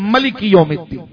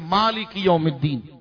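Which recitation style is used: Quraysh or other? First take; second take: other; Quraysh. First: It is recited in another reading style. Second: It is recited in the Quraysh reading style. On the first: "دوسری قرات کا لہجہ ہے" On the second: "یہ قریش کا لہجہ ہے"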